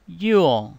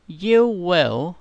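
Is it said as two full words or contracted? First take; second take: contracted; full. First: It is said as one contracted syllable. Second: It is said as two full words.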